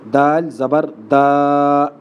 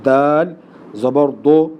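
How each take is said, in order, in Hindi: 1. अंतिम स्वर खींचकर लंबा किया जाता है। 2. अंतिम स्वर मोटा और भारी सुनाई देता है। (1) "लंबा किस तरह पढ़ते हैं लोग ... ये गलत है" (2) "मोटा और पुर पुर पढ़ना ये भी गलत है"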